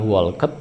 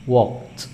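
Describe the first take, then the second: First: "walked" misread as wol-ket; wrong two-syllable walked. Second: "walked" said slowly as wokt; correct one-syllable walked. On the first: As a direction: sound out the ed in "walked" as its own syllable. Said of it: "bacanya bukan walked". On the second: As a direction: end "walked" straight on kt. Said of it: "tapi walked". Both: Shown as a demonstration.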